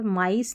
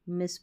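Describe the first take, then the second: First: The vowel sounds like 'eye'. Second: The vowel sounds like 'ih'. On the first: The speaker calls it wrong. "माइस नहीं पढ़ना है इसको" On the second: The speaker calls it right. "मिस पढ़ना है"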